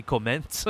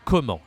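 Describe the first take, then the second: First: "comment" with n and t sounded; wrong, English reading. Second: "comment" with nasal en, silent t; French pronunciation. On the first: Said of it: "We don't say comment". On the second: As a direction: model "comment" as "ko-mahn", no n or t. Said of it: "But in French, this is". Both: Shown as a demonstration.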